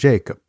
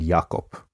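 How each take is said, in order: First: The name is said with an English pronunciation. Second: The name is said with a non-English pronunciation. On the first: The speaker calls it wrong. "Three names I managed to say as if they were English" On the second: The speaker calls it right. "The correct way of speaking these names"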